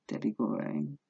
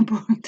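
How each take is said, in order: First: "Goring" said by mistake, trailing off softer; slip of the tongue. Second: "Boring" said louder through a laugh, rising; laughing correction. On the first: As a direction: let "Goring" slip out instead of boring. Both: Real, not acted. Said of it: "Didn't mean to say that".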